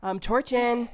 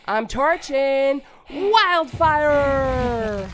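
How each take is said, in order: First: Said in the usual way. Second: Loud, slow battle cry; attack shout. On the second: Acted. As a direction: belt out the attack.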